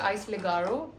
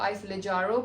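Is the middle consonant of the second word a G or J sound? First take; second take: G sound; J sound. First: The second word has a hard g sound. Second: The second word has a soft j sound. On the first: This is how the customers say it. "हम वहाँ पे उनको काउंटर पे कहते हैं आइस लेगारो" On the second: This is how the staff say it. "वो खुद इसको आइस लेजारो बोल रहे थे"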